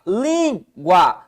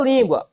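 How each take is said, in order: First: "língua" slowly split, a long LÍN, pause, then gua; syllable separation. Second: Said in the usual way. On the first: Shown as a demonstration. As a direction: stretch LÍN in "língua" and set gua apart. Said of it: "tá na penúltima sílaba". ("língua" separando LÍN e gua, devagar) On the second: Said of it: "Opa, língua".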